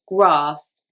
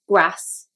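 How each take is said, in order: First: The vowel is a long ar sound. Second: The vowel is a short a sound. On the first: "in the south, we would say grass, and we would say this A as R" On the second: "with the Liverpool accent, they would say grass"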